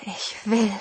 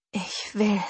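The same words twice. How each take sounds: First: Second unvoiced whisper, repeated. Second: Breathless, unvoiced whisper. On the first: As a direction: whisper it once more, lost. (noch einmal geflüstert) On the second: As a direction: breathe it out, barely there. (gehauchtes Flüstern) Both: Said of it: "flüsterte ich".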